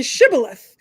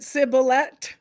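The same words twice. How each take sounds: First: SHIBBOLETH with a clear SH at the start; standard shibboleth. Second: SIBBOLETH starting on a plain S, no SH; mispronounced shibboleth. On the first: Host explains the password to co-host, standard shibboleth. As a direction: say shibboleth with an opening sh sound. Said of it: "how to pronounce it the same as me". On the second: Host tests the outsider's pronunciation, mispronounced sibboleth. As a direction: open sibboleth with s instead of sh. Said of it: "do you pronounce it sibboleth". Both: Shown as a demonstration.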